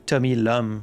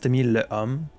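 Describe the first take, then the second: First: The surname is one merged syllable, 'lum'. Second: The surname is two separate syllables, 'le homme'. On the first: The speaker calls it right. "It really should be Tommy Lum" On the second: The speaker calls it wrong. "I don't know why it's Tommy Le Homme"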